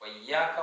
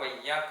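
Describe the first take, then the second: The two takes are said the same way.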